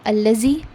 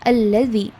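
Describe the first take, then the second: First: The middle consonant is a z-like sound. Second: The middle consonant is a th-like sound. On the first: The speaker calls it wrong. "It is not allazi" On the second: The speaker calls it right. "The front part of your tongue comes out a little bit between the two jaws"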